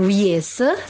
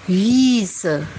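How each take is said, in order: First: The i vowel is short. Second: The i vowel is long. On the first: The speaker calls it wrong. "bukan Wiese" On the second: The speaker calls it right. "huruf I-nya dibaca panjang"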